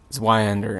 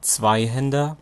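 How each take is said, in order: First: The word is said with an American pronunciation. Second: The word is said with a German pronunciation. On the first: "as the proper um, American pronunciation for that German word would be" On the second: "in Germany, you would pronounce it Zweihänder"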